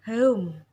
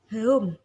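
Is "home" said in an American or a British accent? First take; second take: British; British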